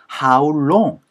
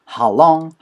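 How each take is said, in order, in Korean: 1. 'long'이라는 단어는 완전하게, 길게 늘여서 발음됩니다. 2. 'long'이라는 단어는 짧게, 줄여서 발음됩니다. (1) "How long 이라고 가지 않아요" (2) "how long까지 가지 않으니까"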